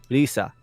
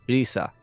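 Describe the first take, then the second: The two takes are said the same way.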